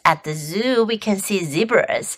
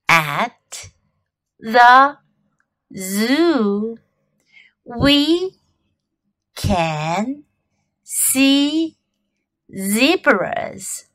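First: It is said at normal speed. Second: It is said slowly.

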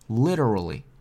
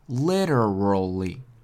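First: The word is said quickly. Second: The word is said slowly. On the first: "然后加快" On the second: "我们先慢慢的读"

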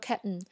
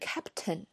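First: The p and t are held, not released. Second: The p and t are fully released. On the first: "p 和t 都没有发出来" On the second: "原来是captain"

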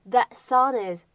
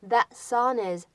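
The two takes are said the same way.

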